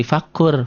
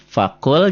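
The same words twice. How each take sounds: First: "fakur" ending on a rolled r; l turned to r. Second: "fakul" ending on a clear l; unmerged l. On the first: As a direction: replace the l with a trilled r in "fakur". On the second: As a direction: sound the final l of "fakul". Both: Shown as a demonstration. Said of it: "fakul jadi fakur".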